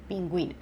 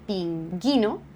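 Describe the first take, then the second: First: The u after the g is pronounced. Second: The u after the g is silent. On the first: The speaker calls it right. "on dit pingüino" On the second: The speaker calls it wrong. "On ne dit pas pinguino"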